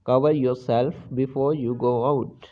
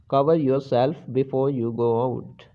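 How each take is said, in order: Both takes have the same delivery.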